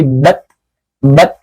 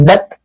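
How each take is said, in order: First: Bat with the air flowing out; right bat. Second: Bat without air flowing out; wrong bat. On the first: Teacher shows the correct bat. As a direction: let air hiss through bat. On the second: Teacher shows the wrong bat. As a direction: cut bat off with no breath. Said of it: "nggak boleh". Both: Shown as a demonstration.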